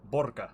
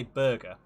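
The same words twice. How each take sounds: First: Burger with a rounded "bor" first syllable; botched Russian burger. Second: Said in the usual way. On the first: Shown as a demonstration. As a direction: try Burger in a Russian accent, landing on "BOR-guh". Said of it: "I cannot make my mouth do it". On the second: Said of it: "I know how you say burger".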